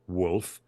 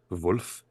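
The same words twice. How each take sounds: First: The name is said with plain English sounds. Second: The name is said with German-style sounds. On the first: "I think it's actually um" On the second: "that kind of Germanic Wolf"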